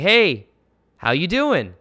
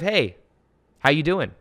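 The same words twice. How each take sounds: First: The greeting sounds needy and eager for approval. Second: The greeting sounds relaxed and unattached to any response. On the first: The speaker wants the listener to like them. The speaker calls it wrong. "Can you tell how I'm seeking validation?" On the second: The speaker does not care how the listener responds. The speaker calls it right. "I'm not attached to what the what the fuck you say"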